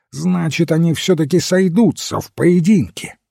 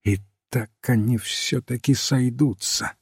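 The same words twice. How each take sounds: First: Higher, animated narrated exclamation; excited deduction. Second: Softer, voiced undertone, not a full whisper; hushed repeating. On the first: Duke realizes the duel will happen, excitedly. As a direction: conclude it with keen anticipation. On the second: Flambeau echoes the overheard talk at the window, hushed. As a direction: repeat it quietly, under cover. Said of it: "шёпотом повторял их слова". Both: A narrator's reading.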